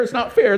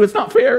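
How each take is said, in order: First: Dropping into a sulk; sulky mutter. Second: Sharply higher squeal of not fair; a teen stamping their foot; whiny tantrum. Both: Acted. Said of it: "over and over again".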